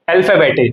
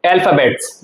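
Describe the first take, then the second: First: "अल्फाबेटे" with a sounded final -e; German pronunciation. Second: "अल्फाबेट्स" said the English way, ending in -ts; English pronunciation. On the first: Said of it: "इसको हम बोलते हैं". ("अल्फाबेटे" का German उच्चारण, अंत में टे) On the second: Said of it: "English में बोलते हैं". ("अल्फाबेट्स" का अंग्रेज़ी उच्चारण, अंत में ट्स) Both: Shown as a demonstration.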